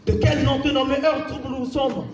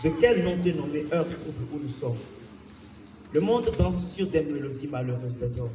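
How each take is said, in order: First: Raised, insistent poetic question; forceful declamation. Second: Low, soft poetic lament; subdued declamation. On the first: Poet challenging the troubled hour, forcefully declaimed. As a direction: put the question out with full voice. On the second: Poet addressing a troubled hour, subdued and low. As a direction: drop right down and lament quietly. Poem drops after the rant. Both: Acted.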